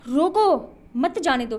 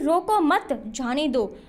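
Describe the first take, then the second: First: There is a pause after the first word. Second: There is a pause after the second word. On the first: Stop them; do not let them go. "रोक लो जाने मत दो" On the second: Do not stop them; let them go. "मत रोको जाने दो"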